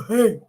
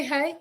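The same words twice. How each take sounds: First: Lightly mimicked husband's greeting; imitating hubby's hey. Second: Said in the usual way. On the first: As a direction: playfully copy hubby's "Hey". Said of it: "Did you say it like that?". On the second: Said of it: "Did you say".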